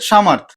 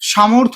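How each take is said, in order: First: The word is pronounced the Hindi way. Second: The word is pronounced the Bengali way.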